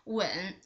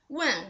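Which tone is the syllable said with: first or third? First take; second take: third; first. First: The syllable is said with the third tone. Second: The syllable is said with the first tone. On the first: It means to kiss. "When with the third tone means kiss" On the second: It means to ask. "When with the first tone means ask"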